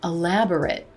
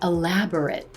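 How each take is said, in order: The two takes are said the same way.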